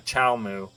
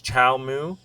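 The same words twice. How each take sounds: First: "Chow Moo" falling at the end; settled statement. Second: "Chow Moo" slow, rising at the end; unsure question. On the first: Reader settling on the name, falling tune on "Moo". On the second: Reader puzzling out a name in the book, unsure rise on "Moo". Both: Real, not acted.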